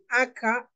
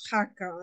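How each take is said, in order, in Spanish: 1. La palabra empieza directamente con una vocal. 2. La palabra empieza con un sonido h aspirado. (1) "en algunos lugares dicen acá" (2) "en otros lugares decimos jaca"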